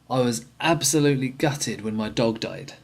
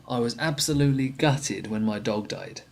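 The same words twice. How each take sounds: No difference in how they are said.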